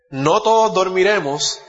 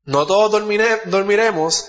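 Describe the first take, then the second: First: "todos" drawn out and weighted, slow; stress on todos. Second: Rereads it, pushing "todos" up; stress on todos. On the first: Preacher reading the verse to his congregation, slow stress on "todos". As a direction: lean slowly on "todos" as he reads the verse. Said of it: "preacher quotes the verse slowly". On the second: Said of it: "preacher repeats the verse, higher". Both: Shown as a demonstration.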